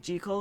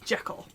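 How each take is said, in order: First: The name rhymes with treacle. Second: The name does not rhyme with treacle. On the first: This is how the original author meant it. "supposed to rhyme with treacle" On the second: This is how Americans say it. "the American pronunciation"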